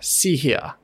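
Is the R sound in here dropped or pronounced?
dropped. The R sound at the end is dropped. "this very clear R dropping accent"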